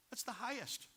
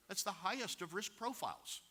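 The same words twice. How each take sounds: First: "the" hit high and hard, "That's THE highest"; emphatic high "the"; stress on THE. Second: "highest" carries the weight, falling after it; firm fall from "highest"; stress on HIGHEST. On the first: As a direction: lean up on "the" as the superlative. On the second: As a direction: land on "highest" and let it drop. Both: Shown as a demonstration.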